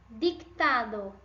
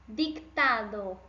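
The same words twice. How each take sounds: No difference in how they are said.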